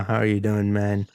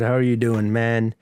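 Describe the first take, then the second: First: It is said with low, flat energy. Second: It is said with high, lively energy.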